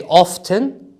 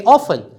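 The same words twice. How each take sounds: First: "often" with the t clearly spoken, OF-ten; "often" pronounced with a t; sounded t. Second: "often" with no t, OFF-en; "often" pronounced without a t; silent t. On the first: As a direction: say "often" with the t heard. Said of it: "In British English, we say often". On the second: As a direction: say "often" dropping the t. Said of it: "In American English, they say often". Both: Shown as a demonstration.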